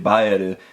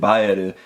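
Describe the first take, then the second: First: The name is said with Japanese syllables. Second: The same.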